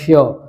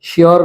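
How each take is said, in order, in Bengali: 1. শেষের r ধ্বনিটি নীরব থাকে। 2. শেষের r ধ্বনিটি উচ্চারিত হয়। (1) "আর এর উচ্চারণটা বাদ যাবে" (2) "শিওর না"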